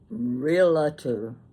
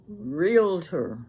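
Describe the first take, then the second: First: It is said with an extra vowel, three syllables. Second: It is said with two syllables, no extra vowel. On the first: The speaker calls it wrong. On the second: The speaker calls it right.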